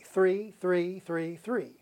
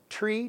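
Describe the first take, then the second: First: The word begins with a th sound. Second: The word begins with a plain t sound. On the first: The speaker calls it right. "the TH sound in the word three" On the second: The speaker calls it wrong. "he always said, "tree"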